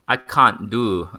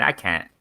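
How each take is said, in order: First: Slow, stretched mock English accent; attempted English accent. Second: Said in the usual way. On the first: Shown as a demonstration. Host failing at an English accent, drawn-out and mock. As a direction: try "can't" with an English broad vowel. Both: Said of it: "I can't do the English accent".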